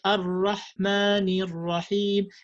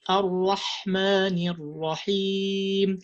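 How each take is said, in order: First: The h sound lacks the whispered breathiness. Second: The h sound is strongly breathy and whispered. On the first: The speaker calls it wrong. "you don't uh, pronounce the, the this whisper in ha" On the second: The speaker calls it right. "you have to say"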